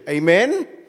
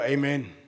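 First: It rises at the end like a question. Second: It falls at the end like a statement.

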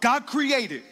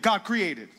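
First: It is said more strongly and loudly. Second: It is said at normal strength.

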